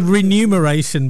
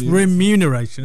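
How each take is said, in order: First: The m and n sounds are swapped. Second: The m comes before the n. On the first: The speaker calls it wrong. "I want to say remuneration" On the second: The speaker calls it right. "but it's remuneration, isn't it?"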